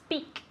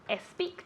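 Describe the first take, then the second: First: The word starts directly with the s sound. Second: An extra vowel sound comes before the s. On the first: The speaker calls it right. "You have to say it just like Diana said it" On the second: The speaker calls it wrong. "Remember not to say es speak because es speak doesn't exist"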